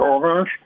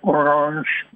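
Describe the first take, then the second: First: The name is said with a French pronunciation. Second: The name is said without a French pronunciation.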